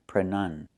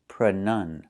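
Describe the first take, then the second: The two takes are said the same way.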